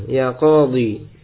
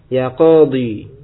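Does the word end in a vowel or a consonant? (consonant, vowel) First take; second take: vowel; vowel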